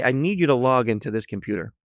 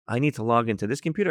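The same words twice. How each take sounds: First: Said in the usual way. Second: "I need to log into this computer?" with a rise on "computer"; questioning echo. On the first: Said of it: "So I say to her". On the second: Retold or imitated. Woman querying the auditor's request, questioning rise on "computer". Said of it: "And she's like".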